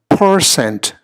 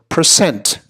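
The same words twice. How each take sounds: First: The stress is on the first syllable. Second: The stress is on the second syllable. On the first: The speaker calls it wrong. "we put the emphasis on the first syllable instead" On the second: The speaker calls it right. "the emphasis really ought to be on the second syllable"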